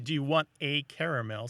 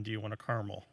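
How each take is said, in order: First: CARAMEL in three syllables, CARE-a-mel. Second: CARAMEL squeezed to two syllables, CAR-mel. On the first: Host comparing how the question sounds, three-syllable caramel. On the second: Host giving the version that sounds worse, two-syllable caramel. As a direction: say "caramel" as car-mul, no middle vowel. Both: Shown as a demonstration. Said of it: "sounds better than".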